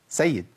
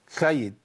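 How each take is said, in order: First: The s sound is clear and precise. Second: The s sound is lisped and unclear. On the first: The speaker calls it right. "هي أصلا إيه؟" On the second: The speaker calls it wrong. "سيد في السي مثلا يقول لك إيه؟"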